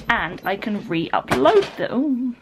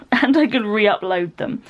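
First: Slow "re-upload them" tailing into a slurred "them"; fluffed delivery. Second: Said in the usual way. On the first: Real, not acted. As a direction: stumble on the end of "re-upload them", drawing it out. Fluffed word, then laughs, redoes.

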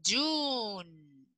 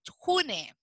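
First: Very slow June with a soft y-like start, yun; correct pronunciation. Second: June read with a Spanish jota, like hune; wrong pronunciation. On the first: Teacher slowly correcting the class on June. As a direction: drag out June gently, yun. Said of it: "se dice June". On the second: Teacher imitating the wrong hune reading of June. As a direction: show the mistake: June as hune. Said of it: "No se lee June". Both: Shown as a demonstration.

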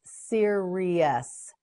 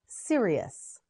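First: "Serious" slowly as seer, ee, us; syllable by syllable. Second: Said in the usual way. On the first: Shown as a demonstration. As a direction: stretch each syllable of "Serious". Teacher models word by syllables.

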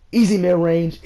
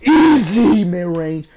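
First: Said in the usual way. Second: Slow, stretched, loud yell of easy; drawn-out scream. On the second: Real, not acted. Gamer howling over his own mid-range shot, slow and loud. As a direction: howl it out long after the shot drops. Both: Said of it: "I'm sorry I'm screaming".

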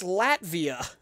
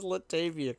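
First: "Latvia" in two syllables, drawn out loudly; loud, slow realization on "Latvia"; corrected pronunciation. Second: "Latavia" with an extra syllable, la-TAY-via; misread Latavia. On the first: Real, not acted. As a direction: say "Latvia" with no vowel between t and v. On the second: Shown as a demonstration. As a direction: say "Latavia" as the misreading, adding a vowel after the t. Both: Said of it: "I so read it as Latavia".

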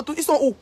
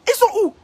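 First: Said in the usual way. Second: Much higher and louder, sharp on sont; taunting squeal at rival; high mocking repeat. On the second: Real, not acted. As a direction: jump the pitch up in mock disbelief.

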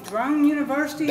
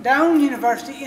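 First: "Drone" said with a clear DR at the start; "Drone University", with an R sound before the O; mispronounced name. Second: "Doane" said DOHN, with no R; "Doane University", a clean D then OH; corrected name. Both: Real, not acted. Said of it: "I'm gonna say it wrong probably".

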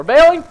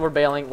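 First: High, loud, rising yell; panicked shout. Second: Said in the usual way. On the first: Real, not acted. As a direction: repeat it as an urgent high shout. Repeats it as a shout.

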